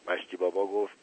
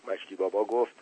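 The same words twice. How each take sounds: The two takes are said the same way.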